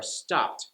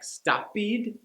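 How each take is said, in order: First: "stopped" as one syllable ending in t; correct stopped. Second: "stoppied" with an added ee syllable at the end; wrong extra syllable. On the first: Teacher modelling the right way for learners. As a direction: say "stopped" as stopt, one beat. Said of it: "technically correct". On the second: Teacher mimicking a learner's extra syllable, higher pitch. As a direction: say "stoppied" as three beats, stop-pee-d. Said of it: "add the "ed" sound to every E D ending". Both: Shown as a demonstration.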